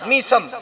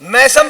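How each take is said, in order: First: The first vowel sounds like 'ee'. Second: The first vowel sounds like 'ai'. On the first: The speaker calls it right. "कसरे के साथ, जेर के साथ" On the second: The speaker calls it wrong. "मैसम pronunciation गलत है"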